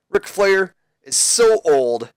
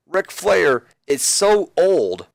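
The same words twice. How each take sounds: First: Put-on milk the so old line; drawn-out insult. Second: So stretched long and high; drawn-out insult. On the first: Jericho taunting Ric Flair, a high drawn-out so. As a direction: stretch out the word so, high and slow. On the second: Retold or imitated. Jericho taunting Ric Flair, a slow stretched so. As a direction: linger on the so for the laugh.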